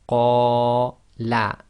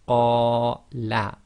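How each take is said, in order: First: The final vowel is short. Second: The final vowel is short.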